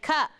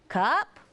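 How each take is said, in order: First: It is said as a plain statement. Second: It is said as a questioning word. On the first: The child states that this is a cup. "This is a cup" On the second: The child asks whether it is his cup. "he's asking, is that my cup?"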